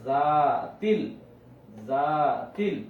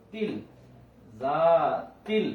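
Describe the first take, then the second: First: জা long, তিল short and joined; stretched জা. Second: জা held long and তিল kept short; stretched জা. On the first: Teacher demonstrating joining letters, deliberate. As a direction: pull জা, join তিল. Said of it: "এখানে টান আছে, আমি টানছি". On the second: Teacher showing where the stretch is, deliberate. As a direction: pull জা, clip তিল. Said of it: "এখানে টান আছে". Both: Shown as a demonstration.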